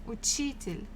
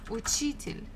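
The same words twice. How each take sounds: Both takes have the same delivery.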